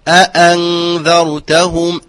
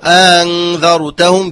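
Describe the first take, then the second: First: Both glottal stops are fully and clearly pronounced. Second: The second glottal stop is softened and eased. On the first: The speaker calls it right. "فعليه أن يحقق هذا الحرف" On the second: The speaker calls it wrong. "يقرأ أنذرتهم بتسهيل"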